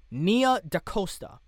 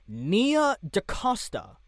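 First: "Nia DaCosta" repeated a little faster, settled; "Nia DaCosta" said once more, surer; settled pronunciation. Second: "Nia DaCosta" said slowly, each syllable careful; careful pronunciation. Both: Shown as a demonstration. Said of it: "sorry if I'm mispronouncing this".

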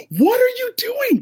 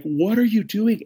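First: Very high, freaked-out shout; losing their minds. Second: Higher, incredulous retold question; milder freak-out. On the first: Retold or imitated. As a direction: shout it in shrieking, panicked disbelief. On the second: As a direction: ask it in restrained disbelief, ending on a rise. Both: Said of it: "They lose their mind".

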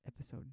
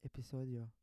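First: "episode" said the plain English way; English "episode" mid Spanish sentence; English word slipped in. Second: "episodio" said e-pi-SO-dyo as Spanish; careful Spanish "episodio" after a prompt; repeating the Spanish word. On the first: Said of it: "How do you say episode in Spanish?". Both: Real, not acted.

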